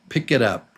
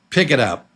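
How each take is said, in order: First: The words run together as one. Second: The same.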